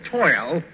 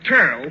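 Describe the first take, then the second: First: The vowel is a standard 'oy' sound. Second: The vowel sounds like 'er', New York style. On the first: The speaker calls it right. "for toil" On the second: The speaker calls it wrong. "the substitution of turl"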